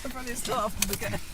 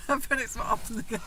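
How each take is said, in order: First: Said in the usual way. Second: Said through a laugh, pitched up; giggling as she repeats the line. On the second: Real, not acted. Wife laughs while repeating her own joke.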